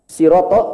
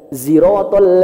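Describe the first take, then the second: First: The word begins with an s sound. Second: The word begins with a z sound. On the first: This is the widely used reading. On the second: This is the reading of another tradition.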